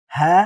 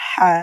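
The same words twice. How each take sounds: First: হা with an open, plain H; loose, unsqueezed H on হা; big ha first. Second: হা with a tight mid-throat H; small ha after. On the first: Teacher drilling the reversed order, open হা. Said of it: "এবার আমরা আগে হা বলবো". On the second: Teacher drilling the reversed order, throaty হা. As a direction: squeeze the H of হা in the throat. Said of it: "পরে হা বলবো". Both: Shown as a demonstration.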